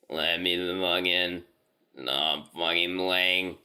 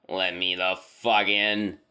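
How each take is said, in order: First: Slow, halting voice of something not human; halting inhuman voice. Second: Slow, strange-toned creature voice with no rhythm; halting inhuman voice. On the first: Creature at the cabin door begging to be let in, slow and halting. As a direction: drag each word out with no natural rhythm. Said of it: "in this halting, weirdly toned voice". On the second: Thing outside the door repeating its demand, slow and inhuman. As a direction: stretch the words oddly like a trained animal talking. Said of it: "it just keeps saying". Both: Retold or imitated.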